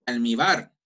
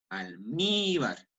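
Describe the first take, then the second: First: "almíbar" wrongly stressed on BAR, louder; stress on last syllable. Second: "almíbar" with a long drawn-out MÍ; stress on middle syllable. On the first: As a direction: punch the end of "almíbar", as almiBÁR. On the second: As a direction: slowly stretch the second syllable of "almíbar". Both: Shown as a demonstration. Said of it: "no, almíbar".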